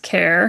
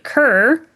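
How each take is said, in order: First: The name rhymes with 'air'. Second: The name rhymes with 'fur'. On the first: This is how the name's owner says it. The speaker calls it right. "it is actually pronounced Care" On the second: This is how a character says the name. The speaker calls it wrong. "He pronounces it Kerr"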